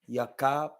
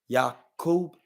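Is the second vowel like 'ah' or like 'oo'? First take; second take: ah; oo. First: The second syllable has an 'ah' vowel. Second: The second syllable has an 'oo' vowel. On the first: The speaker calls it right. "It's Yakab" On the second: The speaker calls it wrong. "It's not Yakub. It's not how you pronounce that"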